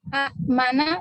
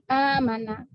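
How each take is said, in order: First: A short vowel is cut off by a glottal stop. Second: The first vowel is stretched long without a stop. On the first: This is the original underlying form. "aslinya itu hamzah keduanya sukun ya" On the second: This is the eased form actually read. "jadi amana"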